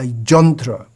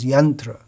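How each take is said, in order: First: The word starts with a 'j' sound. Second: The word starts with a 'y' sound. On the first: The speaker calls it wrong. "Bengali pronunciation" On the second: The speaker calls it right. "the standard pronunciation is yantra"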